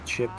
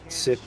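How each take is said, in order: First: The syllable starts with a ch sound. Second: The syllable starts with an s sound. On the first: The speaker calls it right. "It's chip. ... the I is ch in Italian" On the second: The speaker calls it wrong. "Sip and Kip are both wrong"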